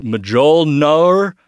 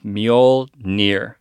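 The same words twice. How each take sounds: First: Mjolnir said as "muh-JOHL-nor"; wrong pronunciation. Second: Mjolnir said slowly as "MYOL-neer"; correct pronunciation. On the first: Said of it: "I was saying". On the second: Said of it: "it's actually". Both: Shown as a demonstration.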